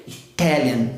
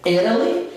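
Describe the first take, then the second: First: "Italian" with a true T on stressed "tal"; lower, falling "Italian" with clear T; second-syllable stress. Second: "Italy" with stressed I and tapped R for T; higher, rising "Italy", like "írali"; first-syllable stress. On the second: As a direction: flap the T after the stressed I of "Italy". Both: Shown as a demonstration. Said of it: "por causa da tônica".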